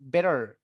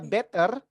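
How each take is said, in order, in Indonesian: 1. Bunyi t seperti d yang lembut. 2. Diucapkan dengan aksen Indonesia. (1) "T-nya diganti D aja ... ini bakal kedengaran American" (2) "itu nggak American, nggak British. Indonesia banget ya"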